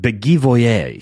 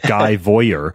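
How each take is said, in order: First: The name is said with a French-style accent. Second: The name is said with an American accent. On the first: The speaker calls it right. "Guy Voyer sounds much more sophisticated" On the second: The speaker calls it wrong. "me and my red-blooded American redneckedness called him Guy Voyer"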